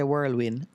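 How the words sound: The word is said in a Jamaican accent. The speaker calls it wrong. "I know Jamaicans say whirlwind, but it's not whirlwind"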